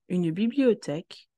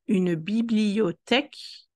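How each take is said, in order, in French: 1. Le mot est prononcé plus vite. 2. Le mot est prononcé plus lentement.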